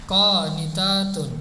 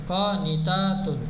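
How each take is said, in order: The two takes are said the same way.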